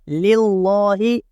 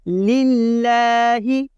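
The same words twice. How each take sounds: First: The l sound is said heavy and thick. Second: The l sound is said light and thin. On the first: The speaker calls it wrong. "इस तरह नहीं पढ़ना" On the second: The speaker calls it right. "लफ्ज़ अल्लाह को हम यहाँ बारीक पढ़ेंगे"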